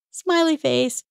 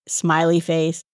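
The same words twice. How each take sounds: First: Lifted high and light; higher, playful. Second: Said in the usual way. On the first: Retold or imitated. Host adds the emoji to soften an email, playful and high. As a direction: pop it up brightly like a grin. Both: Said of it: "Because I wasn't being mean".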